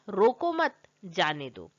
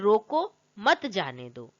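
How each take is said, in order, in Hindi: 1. 'mat' शब्द के बाद विराम है। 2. 'roko' शब्द के बाद विराम है।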